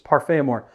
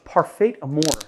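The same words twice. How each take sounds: First: The name is said with a French pronunciation. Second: The name is said with an anglicized pronunciation. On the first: The speaker calls it right. "It's Parfait Amour" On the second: The speaker calls it wrong. "people are gonna really bust me for that pronunciation"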